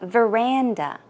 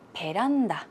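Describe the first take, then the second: First: It is said with English pronunciation. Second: It is said as a Korean loanword. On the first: "if you want to pronounce it, you would say veranda" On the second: "in Korea, we tend to use the word 베란다"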